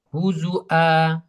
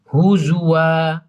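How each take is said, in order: First: The middle consonant is a clear glottal stop. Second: The middle consonant is a w-sound.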